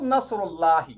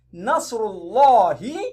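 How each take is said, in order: First: The L in Allah is light and thin. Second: The L in Allah is heavy and thick. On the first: The speaker calls it wrong. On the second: The speaker calls it right. "You read the lamun in Ismul Jalala thickly"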